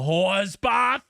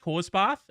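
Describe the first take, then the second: First: It is said with disdain and judgment. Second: It is said in a light, casual way. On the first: It is meant as an insult. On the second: It is just a harmless quick freshen-up.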